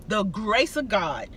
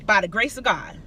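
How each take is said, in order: First: Slow, softer, reverent repeat; slow reverent echo. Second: Said in the usual way. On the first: Real, not acted. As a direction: linger on it like a quiet thanks.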